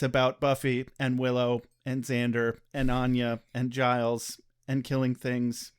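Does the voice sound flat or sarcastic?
flat. The delivery is flatter, in a monotone. "Com- completely monotone from here on out"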